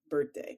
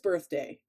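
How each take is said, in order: First: The th sound in the middle is dropped. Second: The th sound in the middle is clearly pronounced. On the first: The speaker calls it wrong. "I'll say it with no H for sure" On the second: The speaker calls it right. "I know it's birthday, by the way, everyone listening. I'm aware of the H"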